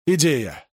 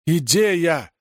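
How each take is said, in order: First: Exclaiming. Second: A higher, bigger shout of «Идея!»; triumphant cry of «Идея!»; louder exclamation. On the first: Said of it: "воскликнул он". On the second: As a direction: repeat «Идея!» with more force. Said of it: "Ты чего орёшь". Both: A narrator's reading.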